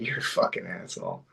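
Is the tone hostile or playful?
playful. It is said in a warm, joking tone. The speaker means it as friendly teasing. "if I was patting you on the back after we did something funny"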